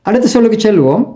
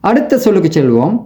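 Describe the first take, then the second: The two takes are said the same way.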